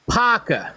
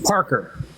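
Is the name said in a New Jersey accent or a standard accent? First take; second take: New Jersey; standard. First: The name is said in a New Jersey accent. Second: The name is said in a standard accent. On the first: "somebody in New Jersey calls you, hey" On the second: "I just pronounced your name properly"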